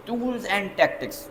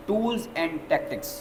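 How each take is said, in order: Both takes have the same delivery.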